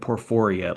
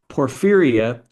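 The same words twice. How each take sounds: First: The second syllable has an 'o' vowel. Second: The second syllable has an 'ee' vowel. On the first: The speaker calls it wrong. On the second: The speaker calls it right.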